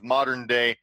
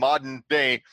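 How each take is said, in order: First: It is said with an American pronunciation. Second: It is said with a British pronunciation. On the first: The intended accent is kept. The speaker calls it right. "instead of modern day" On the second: An actor's accent slips back to the native one. The speaker calls it wrong. "they'll just throw little slip-ups in, like saying modern day"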